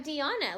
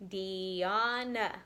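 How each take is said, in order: First: Said in the usual way. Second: "Diana" stretched as dee, ah, na; three even, held beats on "Diana"; split into syllables. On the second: Shown as a demonstration. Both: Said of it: "Let's see how many she has".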